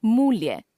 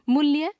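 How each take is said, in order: First: Said in the usual way. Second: मूल्य with short "mu"; mispronounced u. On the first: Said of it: "शुद्ध". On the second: Shown as a demonstration. Teacher showing a common error, मूल्य with short u. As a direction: keep the vowel of मूल्य brief, "mulya". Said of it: "अशुद्ध".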